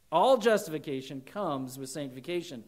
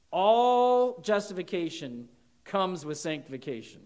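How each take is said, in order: First: Said in the usual way. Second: Louder, punched opening ALL; emphatic first take. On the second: Real, not acted. Preacher hammering the point home, emphatic.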